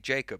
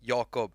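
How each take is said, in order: First: The name is said the English way. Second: The name is said the Swedish way. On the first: This is how it is said in the UK and US. "from the U K and from the U S, and they'll say Jacob" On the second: This is how it is said in Sweden. "In Sweden, we say Jakob"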